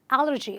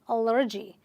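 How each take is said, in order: First: The stress is on the first syllable. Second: The stress is on the second syllable. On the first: The speaker calls it right. "you're supposed to stress on this one" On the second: The speaker calls it wrong. "They stress on the second syllable"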